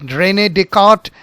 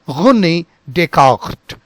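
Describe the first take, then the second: First: The R is a plain, non-throaty sound. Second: The R is a throaty, guttural sound. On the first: The speaker calls it wrong. "it is not René Descartes" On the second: The speaker calls it right. "it is René Descartes"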